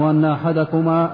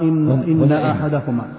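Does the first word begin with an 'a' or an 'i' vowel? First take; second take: a vowel; i vowel. First: The first word starts with an 'a' vowel. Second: The first word starts with an 'i' vowel. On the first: The speaker calls it wrong. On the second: The speaker calls it right.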